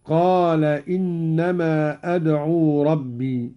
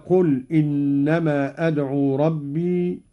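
First: قال said "qaala", long a; slow recitation, stretch the a in قال; past-tense reading. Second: قل said "qul", short u; slow recitation, open with a short قل, "qul"; imperative reading. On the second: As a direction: say قل as the command "qul". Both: Shown as a demonstration. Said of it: "على الفعل الماضي".

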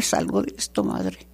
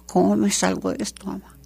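First: The same plea repeated much lower and softer, fading out on madre; much lower pleading repeat. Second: Said in the usual way. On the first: Retold or imitated. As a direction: sink the voice low and let it fade, like a son begging for help. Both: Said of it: "le pedía perdón a mi esposo llorando".

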